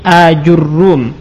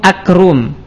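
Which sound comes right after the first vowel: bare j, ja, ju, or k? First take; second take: ju; k. First: Long first a, then ju, then a doubled r. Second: Short first a, then a k sound replaces j. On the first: "dengan hamzah mamdudah, kemudian jim di dhammah, ra di dhammah dan di tasydid" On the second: "jimnya kita ganti dengan huruf kaf"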